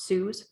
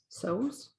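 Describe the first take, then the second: First: The vowel sounds like the one in 'news'. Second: The vowel sounds like the one in 'goes'. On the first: The speaker calls it wrong. "not Sue's ... I always say it wrong" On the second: The speaker calls it right. "Sews, not Sue's"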